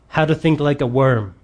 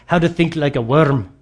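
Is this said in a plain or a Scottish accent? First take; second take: plain; Scottish. First: It is said in the speaker's ordinary accent. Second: It is said in a Scottish accent.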